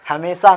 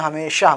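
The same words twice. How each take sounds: First: The middle consonant is a plain 's' sound. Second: The middle consonant is a 'sh' sound. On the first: The speaker calls it wrong. "हमेशा ना बोल के" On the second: The speaker calls it right. "हमेशा बोलना है"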